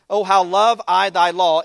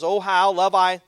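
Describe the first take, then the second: First: "love" stretched and stressed, louder and slow; emphatic scripture reading. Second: Said in the usual way. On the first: Shown as a demonstration. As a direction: lean into "love" with devotion. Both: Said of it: "ninety-seven says".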